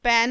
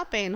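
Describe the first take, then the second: First: "पेन" with open AI, like pan; too-open vowel. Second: Said in the usual way. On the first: Shown as a demonstration. Teacher rejects a misspelling, "पेन" as pain with open AI. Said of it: "पेन नहीं होता". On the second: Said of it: "पेन होता है".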